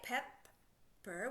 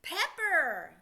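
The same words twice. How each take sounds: First: Slow, two separate parts, PEP then PER; drawn-out Pepper; sounding it out. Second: Pepper run together quickly and louder; quick, loud, joined-up Pepper; said faster. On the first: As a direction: blend it slowly, syllable by syllable. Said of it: "What's it make?". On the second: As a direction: blend the parts fast into one word. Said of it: "Put it together faster". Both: Shown as a demonstration.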